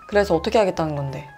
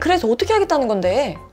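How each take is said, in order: First: The voice is lowered and calm. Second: The voice is raised and agitated. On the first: The speaker calls it right. "목소리를 가라앉혀요" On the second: The speaker calls it wrong. "이렇게 말하지 않고요"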